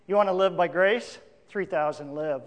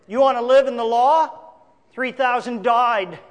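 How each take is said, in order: First: Gentle assurance. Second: Forceful warning. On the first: Preacher offers grace to the congregation, gently. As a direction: soften right down on the answer. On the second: Preacher warns of living under the law, forceful. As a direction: throw the question out hard, then land it heavily. Law's death set against grace's life. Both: Shown as a demonstration.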